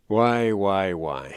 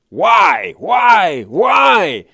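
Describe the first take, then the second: First: The whys are said mildly, without much force. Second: The whys are said with heavy, forceful emphasis.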